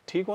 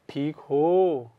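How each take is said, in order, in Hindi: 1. यह सपाट लहजे में, बिना भाव के बोला गया है। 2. यह गर्मजोशी से, दिल से बोला गया है। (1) "नहीं ऐसे नहीं पढ़ना" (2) "ये जो है ना ये भाव एक अलग लेवल का है"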